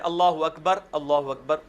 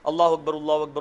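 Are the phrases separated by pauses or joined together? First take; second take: separated; joined. First: Each phrase is said separately, with pauses. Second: The phrases are joined quickly without pausing.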